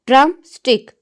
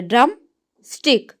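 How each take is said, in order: First: Said in the usual way. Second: drum and stick split by a short pause; break between syllables. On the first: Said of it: "अब इसको बोलते हुए हम". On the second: Shown as a demonstration. Teacher splitting a word for students, syllable by syllable. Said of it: "एक दफ़ा break हुई है".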